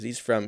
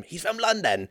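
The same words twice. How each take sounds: First: Said in the usual way. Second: High-pitched, hammed-up London accent; cartoonish Londoner, pitched way up; mock London accent.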